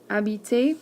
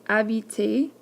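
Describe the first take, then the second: No difference in how they are said.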